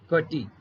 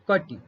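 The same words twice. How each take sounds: First: The final vowel is long. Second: The final vowel is short. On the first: The speaker calls it wrong. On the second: The speaker calls it right.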